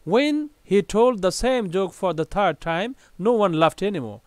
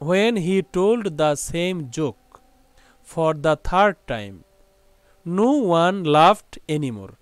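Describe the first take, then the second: First: It is read at a very fast pace. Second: It is read slowly and simply.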